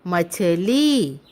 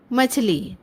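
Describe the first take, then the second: First: मछली slowly, syllable by syllable, with a long ली; drawn-out teaching demo of मछली. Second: Said in the usual way. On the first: Shown as a demonstration. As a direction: stretch the final ee of मछली. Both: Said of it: "ल का उच्चारण थोड़ा लंबा होगा".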